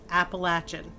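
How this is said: It is pronounced the way southerners say it. "If you are below the Mason-Dixon line, it is typically"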